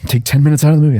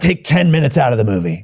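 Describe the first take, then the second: First: It is said softly and politely. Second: It is said forcefully and aggressively. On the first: The request was actually made courteously. The speaker calls it right. "it was more like, ... very genteel" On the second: The request is an exaggerated, harsh demand. The speaker calls it wrong. "They say it in a very aggressive kind of"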